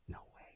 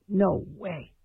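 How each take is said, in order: First: Breathy no-voice whisper of doubt; whispered aside. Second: Said in the usual way. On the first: Real, not acted. Host on the radio whispering his doubt about reaching the stars. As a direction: whisper it to yourself, dismissively.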